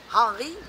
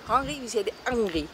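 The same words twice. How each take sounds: First: The word starts with an audible H sound. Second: The word starts without any H sound.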